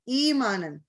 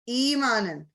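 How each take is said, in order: Both takes have the same delivery.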